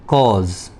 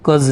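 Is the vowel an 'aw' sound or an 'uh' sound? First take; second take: aw; uh. First: The vowel is an open 'aw' sound. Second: The vowel is a short 'uh' sound. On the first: The speaker calls it right. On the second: The speaker calls it wrong. "कज नहीं बोलना"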